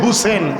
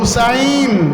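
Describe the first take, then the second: First: The second syllable is shortened to a plain 'e'. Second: The second syllable is said with a full 'ai'. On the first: The speaker calls it wrong. "বলে হাই হুসেন" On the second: The speaker calls it right. "নাম হলো হুসাইন"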